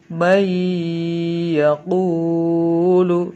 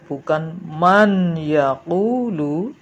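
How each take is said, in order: First: The n sound merges into the following y. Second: The n sound is kept separate before y. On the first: The speaker calls it right. "tapi may yaqulu" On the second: The speaker calls it wrong.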